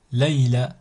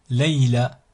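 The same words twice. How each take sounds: The two takes are said the same way.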